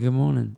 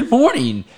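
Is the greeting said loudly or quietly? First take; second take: quietly; loudly. First: The greeting is said quietly, without energy. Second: The greeting is said loudly, with energy. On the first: The crowd responds half-heartedly. The speaker calls it wrong. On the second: The crowd responds with enthusiasm. The speaker calls it right.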